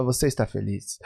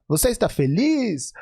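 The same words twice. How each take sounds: First: "Você está feliz?" dropped much lower and softer, weight on "você"; other question melody. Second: "Você está feliz?" asked with a lifted, open question tune ending on "feliz"; question melody. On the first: Teacher contrasting a second melody for the same question, low and soft. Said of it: "Ou vou perguntar". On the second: Teacher demonstrating a question melody to dancers, lifted tune. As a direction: ask "Você está feliz?" brightly, leaning on "feliz". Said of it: "Se eu perguntar". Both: Shown as a demonstration.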